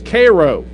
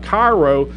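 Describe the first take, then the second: First: The name is pronounced the local way. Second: The name is pronounced the outsider way. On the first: The speaker knows the town. The speaker calls it right. "it's Cairo" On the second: The speaker is not from the town. The speaker calls it wrong. "when you're talking about Cairo, no"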